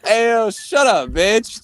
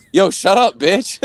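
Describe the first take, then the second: First: High, drawn-out mock heckle; slow, sarcastic tipsy call-out; drunken sarcasm. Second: Raised, loud mock command; jokey, high-pitched telling-off; sarcastic. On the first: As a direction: stretch it out like a drunk joker. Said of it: "sounded like a fucking drunk asshole". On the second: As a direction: blurt it as a sarcastic joke. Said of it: "the most sarcastic, like, way".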